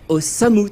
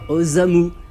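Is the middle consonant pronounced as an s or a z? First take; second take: s; z. First: The middle consonant is a clear s sound. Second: The middle consonant is a voiced z sound. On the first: The speaker calls it right. "c'est Osamu Tezuka" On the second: The speaker calls it wrong. "et pas Osamu"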